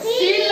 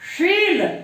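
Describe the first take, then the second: First: It starts with a hissing s, tongue at teeth. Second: It starts with a hushing sh, tongue at palate. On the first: The speaker calls it wrong. "देखो सील नहीं" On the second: The speaker calls it right. "जीभ है, वो हमारी तालू को touch होना चाहिए"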